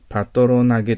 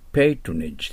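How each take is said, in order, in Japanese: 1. 単語は「geh」の音で終わります。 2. 単語は「j」の音で終わります。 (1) "パトロナゲと書かれてますけど、発音気をつけてください。" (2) "patronage です。"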